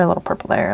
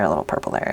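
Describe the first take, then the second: First: Said in the usual way. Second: Dropped into a much lower voice; low playful voice. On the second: Pretend. Crafter dabbing purple, voice dropped much lower. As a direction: sing it out in a deep playful tone. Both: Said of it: "Little bit of purple there".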